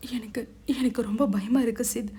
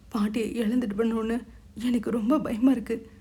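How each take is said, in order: First: A touch of frightened weeping, stammering; mildly tearful, clinging fear; scared crying. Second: Mild tearful fear, falling at the end; a touch of weeping dread; scared crying. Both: Acted. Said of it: "அழுதாள்". (பயந்த லேசான அழுகை)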